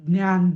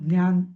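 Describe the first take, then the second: Both takes have the same delivery.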